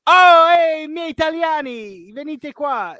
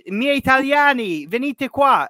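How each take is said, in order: First: High, loud mock call in Italian; excited call. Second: High, loud call in Italian; excited call. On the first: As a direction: shout to the Italian players to come over. Retelling Koulibaly calling teammates again. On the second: Retold or imitated. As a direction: wave the Italian players over, shouting. Retelling Koulibaly calling teammates over.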